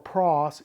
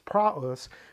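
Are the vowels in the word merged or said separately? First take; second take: merged; separate. First: The vowels merge into a single vowel sound. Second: The two vowels are said as separate syllables. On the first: The speaker calls it wrong. "or pros" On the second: The speaker calls it right. "it's praus"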